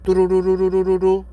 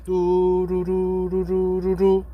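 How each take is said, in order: First: The ringing sound is imitated at normal speed. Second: The ringing sound is imitated subtly slower. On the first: The call is connecting normally. "이게 정상이면" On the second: The other person will not answer. "미묘하게 느려"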